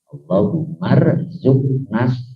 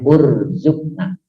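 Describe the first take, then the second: First: The word is joined on, without an initial vowel. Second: The word stands alone, starting with an 'u' vowel.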